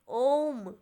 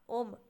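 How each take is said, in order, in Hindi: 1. "o" स्वर ज़्यादा देर तक खींचा जाता है। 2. "o" स्वर छोटा है, खींचा हुआ नहीं। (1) "यहाँ पे ज़्यादा समय लग रहा है" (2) "ओ तो ये तो ज- ज्यादा लंबा नहीं खिंचा रहा है"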